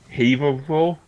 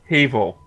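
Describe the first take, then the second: First: Every letter of the name is sounded out. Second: The name is shortened, with sounds dropped. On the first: This is how it would look from the spelling. The speaker calls it wrong. "if you were using the actual letters" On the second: This is the real pronunciation. The speaker calls it right. "But it's actually pronounced"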